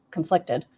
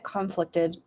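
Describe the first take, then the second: First: Said in the usual way. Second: CONflicted, stressed on the first syllable; conflicted with the emphasis misplaced up front; stress on the wrong syllable. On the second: Real, not acted. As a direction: lean on the CON of conflicted by mistake. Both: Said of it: "put the emphasis on the wrong syllable".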